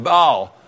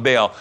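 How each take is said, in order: First: Baal said "bahl", open ah vowel; Baal rhymes with doll; Baal as bah-al. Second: Baal said "bail", long ay vowel; the speaker's own Baal, like bail. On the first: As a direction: say Baal with a broad ah. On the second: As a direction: say Baal to rhyme with pail. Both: Shown as a demonstration. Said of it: "I call it Baal".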